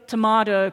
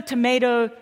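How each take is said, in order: First: "tomato" with a broad AH in the middle; British-style tomato. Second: "tomato" with a long AY in the middle; American tomato. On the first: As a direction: say tomato as to-MAH-to. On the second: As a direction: say tomato as to-MAY-to. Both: Shown as a demonstration. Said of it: "you know the tomato, tomato, potato".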